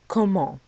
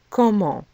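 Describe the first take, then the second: Both takes have the same delivery.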